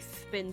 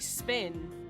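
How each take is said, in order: First: The s sound is lisped. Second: The s sound is clear and normal. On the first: This is how the character with a lisp says it. "because he has a lisp" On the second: This is how the word should sound. "He can't say spin"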